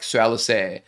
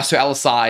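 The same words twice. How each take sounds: First: "Alliser" ending in an open "eh" sound, as an American accent. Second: "Alliser" in Australian pronunciation, ending in a wide "ah-ee" glide; Australian take on the name "Alliser"; Aussie accent. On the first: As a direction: imitate an American saying "Alliser". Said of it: "the American accent is like". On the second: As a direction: show how Aussies say "Alliser". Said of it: "is how we say it as Aussies". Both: Shown as a demonstration.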